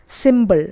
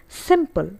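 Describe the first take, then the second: First: "symbol", b in place of p; wrong pronunciation. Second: "simple" with a crisp p; correct pronunciation. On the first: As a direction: voice the p of simple into b: "symbol". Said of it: "It's not symbol". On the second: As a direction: say "simple" with p, not b. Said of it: "It's simple". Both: Shown as a demonstration.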